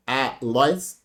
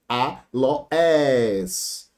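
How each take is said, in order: First: ALOÉS split in two, A then LOÉS run together; wrong two-syllable split. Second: ALOÉS slowly as A, LO, ÉS, last one held; three-syllable split. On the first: Teacher showing a split nobody makes, "Aloés" in two pieces A-LOÉS. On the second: Teacher correcting the split, slow A-LO-ÉS with drawn-out ÉS. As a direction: stretch "aloés" into three syllables, ending on a long ÉS. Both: Shown as a demonstration. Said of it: "ninguém separa com duas sílabas".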